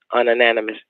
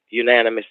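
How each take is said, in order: First: 'Ununanimous' with an extra un- stuck on the front; mispronounced. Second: 'Unanimous' said right, as yoo-NAN-uh-mus; corrected pronunciation. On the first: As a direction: trip on 'Ununanimous', doubling the un. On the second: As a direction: land 'Unanimous' cleanly with a single yoo at the start. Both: Shown as a demonstration. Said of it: "Did I say unanimous?".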